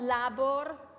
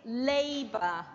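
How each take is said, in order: First: The stress is on the second syllable. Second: The stress is on the first syllable. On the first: The speaker calls it wrong. "not labor" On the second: The speaker calls it right. "It's on the A"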